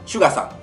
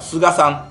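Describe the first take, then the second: First: The name begins with a 'shu' sound. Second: The name begins with a plain 'su' sound. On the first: The speaker calls it right. "シュガさんと発音するようです" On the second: The speaker calls it wrong. "今日初めて見た時は菅さんとお読みしそうになりましたが"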